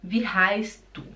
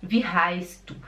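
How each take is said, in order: No difference in how they are said.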